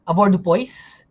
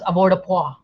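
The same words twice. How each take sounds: First: It is pronounced with English-style sounds. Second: It is pronounced with French-style sounds. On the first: The speaker calls it wrong. "naalala ko nung student ako, avoirdupois ang tawag ko dyan" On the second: The speaker calls it right. "Then I was corrected, it's pronounced as avoirdupois. Okay, French daw siya"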